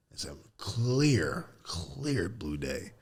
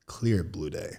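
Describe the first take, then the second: First: Slow, whispered wonder; hushed awe. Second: Said in the usual way. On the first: Real, not acted. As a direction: breathe it out slowly, almost a whisper. Remembering the sky.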